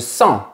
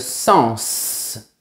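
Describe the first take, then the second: First: The final s sound is silent. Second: The final s sound is pronounced. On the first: It is the verb meaning to feel. "On ne prononce pas la lettre S" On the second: It is the noun meaning meaning. "pour le nom, on prononce"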